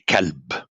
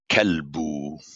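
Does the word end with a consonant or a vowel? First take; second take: consonant; vowel. First: The word ends with a consonant sound. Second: The word ends with a final vowel sound. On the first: This is how people talk in everyday speech. The speaker calls it wrong. "you say kelb, the way we speak" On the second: This is the formal way of reading aloud. The speaker calls it right. "instead of saying kelbu"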